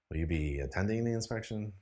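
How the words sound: The question sounds bored and uninterested. "a bored, uninterested voice"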